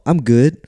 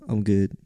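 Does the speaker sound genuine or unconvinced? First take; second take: genuine; unconvinced. First: The voice sounds sincere and content. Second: The voice sounds reluctant and unconvinced. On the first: The speaker is really doing well. "it actually sounds like you're doing okay" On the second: The speaker is not actually doing well. "the other one's like, yeah, I'm all right. I'm good. Then you can tell"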